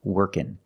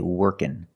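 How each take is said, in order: Both takes have the same delivery.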